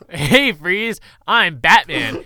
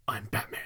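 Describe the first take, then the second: First: Loud, hammy mock catchphrase; Batman, done wrong. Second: Low whispered growl; Batman, done right. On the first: Podcaster mocking Batman and Robin's entrance, loud and hammy. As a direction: call it out big and higher, far too cheesy. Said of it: "That's not how it's done". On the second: Retold or imitated. Co-host quoting Batman grabbing Falcone, low gruff whisper. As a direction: whisper it low and close, menacing. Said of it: "That's how you do the".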